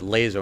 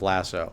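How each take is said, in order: First: The middle consonant is a z sound. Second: The middle consonant is an s sound. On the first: "that's why I pronounce it Lazo" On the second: "if it was called Lasso, it would be spelled with two S's"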